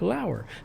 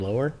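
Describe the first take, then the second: First: The first vowel sounds like 'ow' in 'power'. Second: The first vowel sounds like 'oh' in 'mower'. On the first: This is how the person says his own name. The speaker calls it right. "he wrote pronounced like Lauer" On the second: Other people sometimes say the name this way. The speaker calls it wrong. "sometimes they say Ryan Lower"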